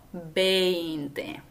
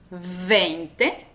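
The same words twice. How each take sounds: First: The word begins with a two-lip b sound. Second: The word begins with a lip-and-teeth v sound. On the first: The speaker calls it right. "sino veinte" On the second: The speaker calls it wrong. "No pronuncias veinte"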